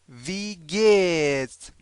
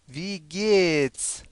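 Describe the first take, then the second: The two takes are said the same way.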